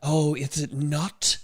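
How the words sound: It is said in a hissing snake voice.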